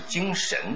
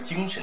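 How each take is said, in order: First: The second syllable carries a full tone. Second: The second syllable is light and toneless. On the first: The speaker calls it wrong. "不是精神的，这就错了" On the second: The speaker calls it right. "读轻声的 ... 应该是精神的契约"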